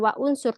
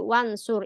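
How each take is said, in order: First: The initial u of unsur is pronounced separately. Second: The initial u is dropped, linking into wansur. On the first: The speaker calls it wrong. "Bukan baca wa unsur" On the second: The speaker calls it right. "tapi wansur"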